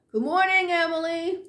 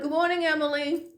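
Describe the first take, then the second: First: Calling out upstairs. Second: Said in the usual way. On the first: Retold or imitated. To a coworker she can't see, calling out a greeting. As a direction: call it up to a coworker on the floor above. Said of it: "and I'm yelling out".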